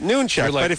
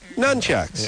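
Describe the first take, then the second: First: The first syllable has a long 'oo' vowel. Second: The first syllable has a short 'u' vowel. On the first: The word was learned by hearing it, not reading it. "I've never seen the word Noonchuck written down. So I always just pronounce it Noonchuck" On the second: The word was learned by reading its spelling. "if you read, you see N-U-N, and you say Nunchucks"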